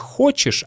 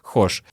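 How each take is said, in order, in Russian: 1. Слово произносится полностью, оба слога чётко слышны. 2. Слово сокращено до одного короткого слога. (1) "Не хочешь" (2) "а хошь"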